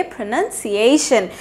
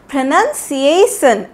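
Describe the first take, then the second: First: प्रोनंसिएशन with a clear sh sound in the ending; correct pronunciation. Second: प्रोनंसिएशन with a plain s sound at the end, the mistake; wrong pronunciation. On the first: Teacher corrects learners, प्रोनंसिएशन with a clear -शन ending. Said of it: "इसको हम लोग बोलेंगे". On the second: Teacher shows learners the common mistake, प्रोनंसिएशन ending in -सन. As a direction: demo प्रोनंसिएशन ending in -सन, not -शन. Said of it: "बिल्कुल गलत". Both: Shown as a demonstration.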